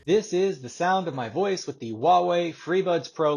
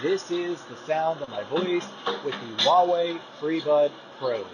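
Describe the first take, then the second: First: The voice is heard with no background noise. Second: The voice is heard over ambient background noise.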